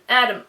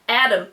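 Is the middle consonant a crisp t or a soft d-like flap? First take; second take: d-like flap; d-like flap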